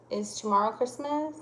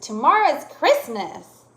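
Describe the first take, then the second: First: Said in the usual way. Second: Higher, louder excited statement; excited exclamation. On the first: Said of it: "am I asking you". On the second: Shown as a demonstration. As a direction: exclaim it with a falling finish. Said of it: "No, I said".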